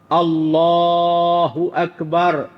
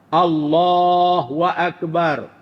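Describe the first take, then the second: First: The syllable after Allah is said as hu. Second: The syllable after Allah is said as wa. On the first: The speaker calls it right. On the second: The speaker calls it wrong.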